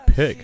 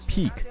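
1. 这个元音短且松。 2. 这个元音长且紧，像 'ee'。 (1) "这个短元音是读作一个短促有力啊" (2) "千万不要读成peak"

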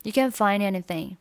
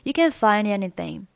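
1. 'find' 的 d 直接连到 anything 里。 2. 'find' 的 d 直接连到 anything 里。

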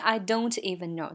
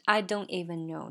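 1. 'don't' 里的 t 很清楚，是爆破的。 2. 'don't' 里的 t 是阻住不放，没有爆破。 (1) "它不是I don't even know" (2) "结尾的t 是被吞掉了呀"

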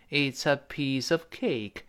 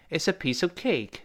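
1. 这句话说得慢。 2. 这句话说得快。

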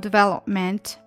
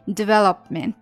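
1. p 音被强烈地爆破出来，听得很清楚。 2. p 音几乎不爆破，只有气流。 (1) "硬要把这个p 读出来的话呢你可能就会读错" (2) "development 不能读成development"

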